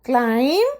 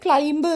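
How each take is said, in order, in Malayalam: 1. ഈ വാക്ക് m ൽ അവസാനിക്കുന്നു, b ശബ്ദമില്ല. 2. ഈ വാക്ക് കേൾക്കാവുന്ന b ശബ്ദത്തോടെയാണ് അവസാനിക്കുന്നത്. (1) "ബി സൈലന്റ് ആണ്" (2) "ക്ലൈംബ് എന്നും വായിക്കരുത്"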